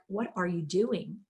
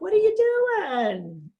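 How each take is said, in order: First: It is said in a judgmental, critical tone. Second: It is said in a playful, joking tone.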